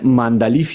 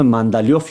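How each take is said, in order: First: The name ends with a 'lief' sound. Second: The name ends with a 'liov' sound. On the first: This is how it is said in Afghanistan and Russian. The speaker calls it right. "ما در افغانستان به نام مندلیف یادش میکنیم" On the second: This is how it is said in Iran. The speaker calls it wrong. "مردم عزیز ما در ایران به نام مندلیوف یادش میکنن"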